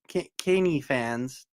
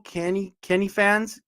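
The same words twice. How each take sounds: First: "Kenny" drawn out as KAY-nee; second reading of name. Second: "Kenny" with a short e, as in pen; first reading of name. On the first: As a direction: slowly say "Kenny fans" with a long "Kay". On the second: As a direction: say "Kenny fans" higher, with a short "Ken". Trying out how a name reads. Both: Real, not acted.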